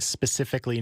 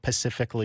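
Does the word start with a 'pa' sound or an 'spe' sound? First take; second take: spe; pa. First: The word begins with an 'spe' sound. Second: The word begins with a 'pa' sound. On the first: The speaker calls it right. "We're talking specifically" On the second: The speaker calls it wrong. "not pacifically"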